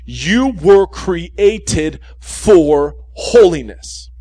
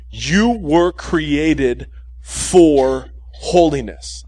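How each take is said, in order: First: Very slow, louder, each word weighed; slow emphatic repeat. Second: Slow, every word spelled out for notes; slow dictation. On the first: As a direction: repeat it slowly and hammer it home. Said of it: "I'm gonna repeat this". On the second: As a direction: dictate it slowly so they can write it down. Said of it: "write this down exactly the way I say it". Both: Shown as a demonstration.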